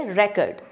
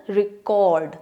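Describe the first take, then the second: First: record said with the stress on रे, the first syllable; teacher demonstrating the noun form, stress on रे. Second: record said with the stress on cord, the second syllable; teacher demonstrating the verb form, stress on cord; stress on the last syllable. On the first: Teacher shows the noun, stressing the first syllable. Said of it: "first syllable यानी रे पे ज़्यादा stress दे के बोलते हैं". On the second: Teacher shows the verb, stressing the second syllable. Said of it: "में हमने cord पे स्ट्रेस दिया है". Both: Shown as a demonstration.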